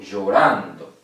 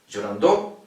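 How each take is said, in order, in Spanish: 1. La sílaba tónica cae en la sílaba del medio. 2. La sílaba tónica cae en una sílaba distinta a la del medio. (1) "Acá. ... la penúltima"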